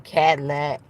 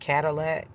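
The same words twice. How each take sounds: First: The word is squeezed into two syllables. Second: The word is said with three full syllables. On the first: "break it down to two syllables like they really pronounce it" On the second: "They don't say Cadillac"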